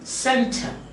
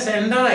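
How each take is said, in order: First: The second vowel is a reduced schwa. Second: The second vowel is a full clear vowel. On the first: The speaker calls it right. "but you say center. ... The schwa vowel" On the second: The speaker calls it wrong. "You don't say sender"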